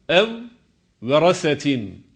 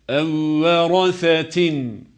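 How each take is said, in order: First: The two v sounds are pronounced separately. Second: The two v sounds merge into one doubled v. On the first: The speaker calls it wrong. "şeklinde değil" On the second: The speaker calls it right. "ikinci vav harfine idgam ederek okuruz"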